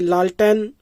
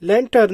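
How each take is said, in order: First: It is said as the Hindi 'laltain'. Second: It is said like English 'lantern'. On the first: This is how the word is said in India. "Hindustan में आया तो इसका नाम ये लालटेन इसका तलफ्फुज बन गया" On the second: This is the original English word. "ये सही लफ्ज लैंटर्न है"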